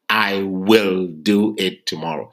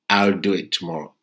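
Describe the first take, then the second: First: The word will is said in full, emphasized. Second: The word will is shortened to a light L sound. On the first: The speaker calls it wrong. "Not I will do it tomorrow" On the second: The speaker calls it right. "They will say you'll do it tomorrow"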